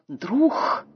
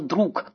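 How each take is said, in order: First: The word ends in a breathy 'kh' sound. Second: The word ends in a hard 'k' sound. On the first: This is the older pronunciation that made the rhyme exact. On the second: This is the modern standard pronunciation.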